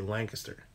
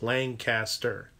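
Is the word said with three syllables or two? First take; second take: two; three. First: It is run together into two syllables. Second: It is said with three clear syllables. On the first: This is how locals say it. "You just kind of slam it all together and spit it out" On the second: This is the standard form. "three should be three syllables"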